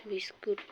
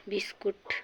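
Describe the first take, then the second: No difference in how they are said.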